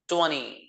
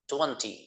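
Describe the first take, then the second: First: It is said in an American accent. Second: It is said in a British accent. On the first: "America वाला इसको बोलेगा ट्वेंटी" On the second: "British इसको बोलेंगे ट्वेंटी"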